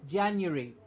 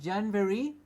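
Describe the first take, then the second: First: A 'you' sound follows the first syllable. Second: A v sound follows the first syllable. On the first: The speaker calls it right. "It's Jan and a U, like U, Y O U" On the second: The speaker calls it wrong. "It is not January. There is no v"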